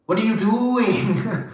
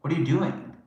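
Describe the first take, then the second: First: High, slow, drawn-out disbelief; stretched exasperation. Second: Said in the usual way. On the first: Retold or imitated. Repeating the question to the person, high and slow in disbelief.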